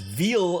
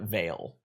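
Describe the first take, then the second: First: The vowel is a long 'ee' sound. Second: The vowel is a long 'ay' sound. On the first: The speaker calls it wrong. "I pronounce this as Veal of Alaris until the internet bullied me about it" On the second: The speaker calls it right. "now I call it Vale"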